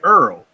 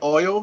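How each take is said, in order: First: It sounds like 'earl'. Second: It sounds like standard 'oil'.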